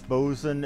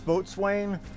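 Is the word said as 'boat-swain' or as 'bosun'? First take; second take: bosun; boat-swain. First: It is said short, as bo-sun. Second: It is said as spelled, boat-swain. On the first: The speaker calls it right. "the proper pronunciation is bosun" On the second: The speaker calls it wrong. "it looks like that says boatswain"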